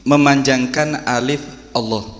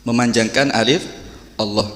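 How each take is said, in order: No difference in how they are said.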